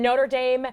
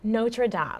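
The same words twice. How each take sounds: First: It is said with an English-style pronunciation. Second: It is said with a French-style pronunciation. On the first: It names the American university's team. "is okay for the Fighting Irish" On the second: It names the Paris cathedral. "the French church that partially burned down is pronounced"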